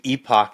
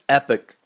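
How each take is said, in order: First: It is said the Philadelphia way, like ee-pock. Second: It is said the Texas way, like epic.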